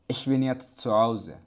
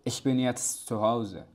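The two takes are said the same way.

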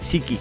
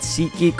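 First: The name is rushed and run together quickly. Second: The name is said slowly with each part clear. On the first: The speaker calls it wrong. "I said it so quick that I was saying SeatGeek" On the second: The speaker calls it right. "I'm gonna pronounce it properly this time"

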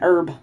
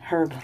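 First: The word starts without an h sound. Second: The word starts with an audible h sound. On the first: "Here in the U.S., well, in Staten Island, New York, we call it an herb" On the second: "So I like the way you guys say it better, herb. That's the way it's spelled"

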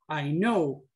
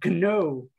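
First: The word starts with an n sound, K silent. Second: The word starts with a pronounced k sound. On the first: The speaker calls it right. "digamos es I know, pero se acuerda que empieza con K" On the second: The speaker calls it wrong. "acostumbrado a que hay que pronunciar entonces yo decía know"

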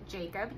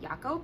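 First: The name is pronounced the English way. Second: The name is pronounced the German way.

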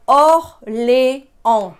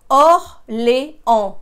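The two takes are said the same way.

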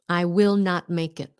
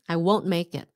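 First: The words will not are said in full. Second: Will not is contracted into one syllable. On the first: "How do you shorten that?" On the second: "you shorten will not, and it becomes I won't make it"

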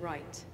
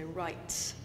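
First: The final t has a short, weak burst. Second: The final t has a long, strong burst.

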